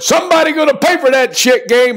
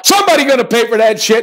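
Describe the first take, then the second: First: Pitched way up, chanted like a slogan; hyped catchphrase. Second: Hyped catchphrase. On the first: Host fires up viewers with his catchphrase, hyped. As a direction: bellow the show's battle cry with swagger. Signature catchphrase kicking off picks. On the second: Host repeats his catchphrase to pump up the pick, fast. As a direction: rattle off the battle cry fast. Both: Real, not acted.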